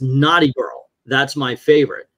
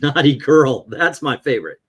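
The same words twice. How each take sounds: First: Naughty girl is exclaimed, then a separate sentence. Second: Naughty girl runs plainly into the next words.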